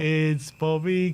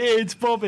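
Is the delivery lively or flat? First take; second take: flat; lively. First: It is said flat, monotone and downbeat. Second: It is said with lively, upbeat energy. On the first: The chant has become gloomy as the season goes on. "more monotone" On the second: The chant was cheerful early in the season. "at the beginning, it was like"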